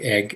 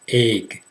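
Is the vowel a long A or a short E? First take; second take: short E; long A. First: The vowel is a short E sound. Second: The vowel is a long A sound. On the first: "some people pronounce them like egg" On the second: "most people pronounce them like a long A"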